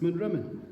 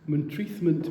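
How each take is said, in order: First: The name is said with no 'th' sound. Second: The name is said with a 'th' sound. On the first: This is how local people say it. The speaker calls it right. "It's Monrimmen" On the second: This is the name as written. The speaker calls it wrong. "I've never heard a local pronounce that"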